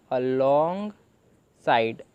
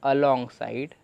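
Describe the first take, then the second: First: Alongside stretched very slowly, syllable by syllable; teacher slowly sounding out alongside; drawn-out reading. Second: Said in the usual way. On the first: Shown as a demonstration. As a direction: drag out alongside as you sound it. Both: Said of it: "तो ऐसे ही हमने इसे पूरे को पढ़ा".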